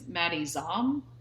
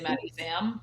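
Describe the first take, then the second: First: The surname has an open 'aw' vowel. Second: The surname has a flat 'a' vowel. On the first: The speaker calls it right. "I think it's Maddie Zom" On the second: The speaker calls it wrong. "I always say Maddie Zam"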